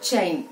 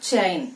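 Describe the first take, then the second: The two takes are said the same way.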